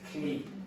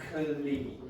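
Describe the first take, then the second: First: The ending is said as one syllable. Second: The ending is said as two syllables. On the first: The speaker calls it right. "You usually get clee" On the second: The speaker calls it wrong. "You don't get clee"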